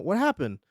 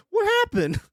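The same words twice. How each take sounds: First: Said in the usual way. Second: Very high squeak of surprise; a sudden high yelp of disbelief; shocked. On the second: Real, not acted. Streamer shocked by a drawing of a dead guy, squeaking.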